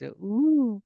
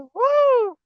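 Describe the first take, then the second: First: The call is soft and shallow. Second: The call is loud and high-pitched. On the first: "first it starts with a very shallow voice" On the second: "the voice gets harder, stronger and stronger"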